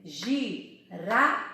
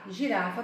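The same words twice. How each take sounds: First: GIRAFA split into gi, ra, fa with pauses; syllable by syllable. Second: Said in the usual way. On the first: Shown as a demonstration. Teacher counting syllables for children, syllable by syllable. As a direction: sound out GIRAFA slowly, one beat per syllable. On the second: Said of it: "tem três sílabas".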